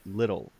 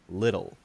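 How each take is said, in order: First: The middle sound is a soft D. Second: The middle sound is a soft D.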